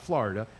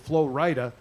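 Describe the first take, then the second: First: The name is run together as one word. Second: The name is split into two separate parts. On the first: The speaker calls it wrong. "not Florida" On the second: The speaker calls it right. "he separates the O and the R"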